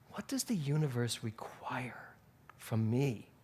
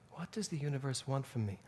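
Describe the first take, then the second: First: Soft whispered question, the word "require" hushed. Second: Said in the usual way. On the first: Shown as a demonstration. The speaker revising her question to the universe, whispering. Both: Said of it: "And I changed it".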